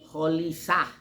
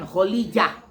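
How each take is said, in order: First: The name is said with an l and s. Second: The name is said with an l and j. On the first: "Ada lagi Kholisah. Salah itu. Makin salah" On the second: "Ini banyak orang bacanya Kholijah. Bukan. Salah itu"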